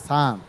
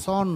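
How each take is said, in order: First: সান with an open "a", like sun; correct vowel. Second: সন with a rounded "o"; wrong vowel. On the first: Teacher giving students the right word for son, open vowel. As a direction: answer with সান, rhyming with fun. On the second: Teacher spelling S-O-N for students, mispronounced. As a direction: say সন as the form to reject. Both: Shown as a demonstration. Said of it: "সন নয়".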